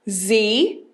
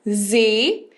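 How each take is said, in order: First: It is said as the letter's full name. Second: It is said as the letter's full name.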